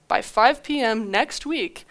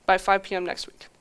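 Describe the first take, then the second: First: Each word of "By five P M next week" spelled out slowly and firmly; slow firm deadline. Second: Said in the usual way. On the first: Retold or imitated. Founder to the buyer companies, setting a firm deadline slowly. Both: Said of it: "here's how it's gonna go".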